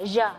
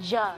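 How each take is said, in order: No difference in how they are said.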